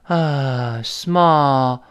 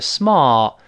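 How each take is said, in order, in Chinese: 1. 这个元音是开口的，像叹气一样。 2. 这个元音是英式的。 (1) "美音省是small 就叹气声音" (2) "英国人都是small"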